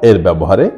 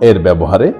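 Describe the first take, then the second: The two takes are said the same way.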